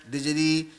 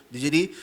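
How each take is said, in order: The two takes are said the same way.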